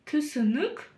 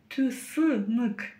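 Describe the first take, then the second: First: The vowels sound short and between hard and soft. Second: The vowels sound hard, like Russian ы. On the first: The speaker calls it right. "та самая средняя мягкость между буквами «ы» и «и»" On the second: The speaker calls it wrong. "Тебе слишком твердо"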